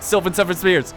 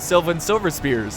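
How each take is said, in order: First: It is said quickly and hurriedly, with stumbling. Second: It is said slowly and casually, without hurry. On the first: The speaker is trying hard to say it fast. The speaker calls it wrong. "But if I'm like, ... like, dang it" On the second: The speaker is not worried about saying it. The speaker calls it right. "if you don't care, it's like, oh, ... Like, no big deal"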